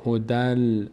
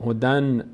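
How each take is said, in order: First: هدل with the nun dropped and the d flowing straight into l; هدل, the nun assimilated into the lam; merged into the lam. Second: هدن with the nun clearly sounded before the lam; هدن, n pronounced and not merged; wrong way, with the n. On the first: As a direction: say هدل, the tanvin becoming lam. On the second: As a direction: say هدن keeping the n, the way it is not read. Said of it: "اینو نمیگیم هدن". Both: Shown as a demonstration.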